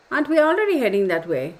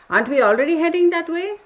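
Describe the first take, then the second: First: "already" peaks, then the pitch drops away; quick question, falling after "already heading"; repeated rhetorical question. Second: "Aren't we already heading that way?" climbing high and loud to the end; high, louder question with a rise through "that way"; rising rhetorical question. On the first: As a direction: say it fast, letting "that way" come down. Repeats her question with another tune. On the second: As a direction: push "heading that way" up in pitch as a challenge. Pointed question after reading the message. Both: Real, not acted.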